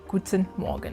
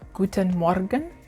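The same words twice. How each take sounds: First: The R in Morgen is soft and relaxed. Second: The R in Morgen is strongly pronounced.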